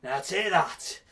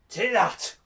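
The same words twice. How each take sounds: First: Menacing slow-motion line; slow drawn-out threat. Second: Said in the usual way. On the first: Acted. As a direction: drag out each word slowly. Third, slower blow.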